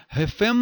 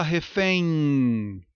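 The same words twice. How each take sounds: First: "refém" com M de consoante, re-fem-mâ; pronúncia errada. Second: "refém" alongado, terminando em êin; ditongo nasal decrescente. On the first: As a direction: solte o M de "refém" numa sílaba extra. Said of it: "ou você fala refém?". ("refém" terminado em "mâ") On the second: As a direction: deixe o fim de "refém" deslizar e cair num i nasal. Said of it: "ditongo decrescente nasal". ("refém" com ditongo êin que decresce) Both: Shown as a demonstration.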